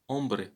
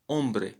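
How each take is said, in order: First: The initial H sound is silent. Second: The same.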